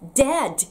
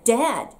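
First: The final d is released with a burst. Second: The final d is stopped without release. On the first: The speaker calls it wrong. "ではなくて" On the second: The speaker calls it right. "終わりのd はストップをかけます"

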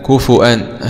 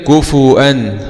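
Both takes have the same delivery.

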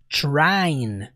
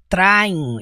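First: The word starts with a ch-like sound. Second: The word starts with a plain, crisp t sound. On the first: The speaker calls it right. "Eu fiz questão de colocar um TCH para você falar mais para dentro" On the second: The speaker calls it wrong. "Percebe que não é trying"

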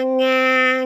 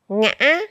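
First: The syllable is said on a level tone. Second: The syllable is said on a broken rising tone.

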